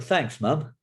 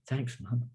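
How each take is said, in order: First: The thanks is said sarcastically, with annoyance. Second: The thanks is said sincerely, in a humble tone. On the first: The child is actually upset, not grateful. "not with the actual meaning of thanks" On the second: The child genuinely accepts losing the food. "not gonna sit there humbly"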